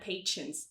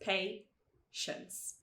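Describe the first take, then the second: First: The middle consonant is a plain t sound. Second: The middle consonant is a soft sh sound. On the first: The speaker calls it wrong. "Algumas pessoas tendem a falar patience" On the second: The speaker calls it right. "mas é patience"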